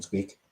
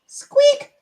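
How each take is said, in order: First: Said in the usual way. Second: A very high, tiny squeak. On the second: Shown as a demonstration. Reading chat's request, then a very high squeak. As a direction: squeak like a little toy on request. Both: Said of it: "so we can hear him squeak".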